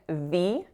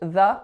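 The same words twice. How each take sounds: First: The vowel is full and unreduced. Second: The vowel is reduced to a schwa. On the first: The speaker calls it wrong. "notice I'm not saying the" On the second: The speaker calls it right. "it's just the with a schwa"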